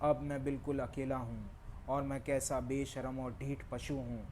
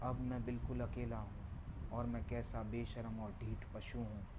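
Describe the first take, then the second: First: The line is spoken at a medium volume. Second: The line is spoken at a fairly soft volume. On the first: "अब थोड़ा volume और बढ़ाता हूँ।" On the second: "अब मैं थोड़ा volume बढ़ाता हूँ।"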